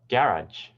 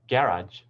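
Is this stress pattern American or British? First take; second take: British; British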